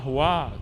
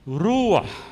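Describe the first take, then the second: First: The word ends on an open vowel. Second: The word ends with a throaty consonant. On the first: The speaker calls it wrong. "O nome não é ruá não" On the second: The speaker calls it right. "Ruach, ruach, né?"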